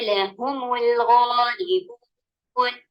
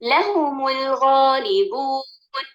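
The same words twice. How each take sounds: First: The stress is on the second syllable. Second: The stress is on the first syllable. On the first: The speaker calls it right. "हाँ पर नबुल डाला गया" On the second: The speaker calls it wrong. "गलत नंबर डालकर लाम पर डालकर"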